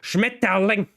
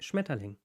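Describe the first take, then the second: First: The word is said harshly and forcefully. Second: The word is said softly and gently. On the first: German sounds hard. "if I say it like that" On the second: German can sound soft. "it sounds very soft"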